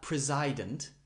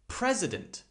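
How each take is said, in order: First: The second vowel is full and strong. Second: The second vowel is short and reduced. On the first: The speaker calls it wrong. "not president" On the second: The speaker calls it right. "here the I sound is that shortened vowel sound"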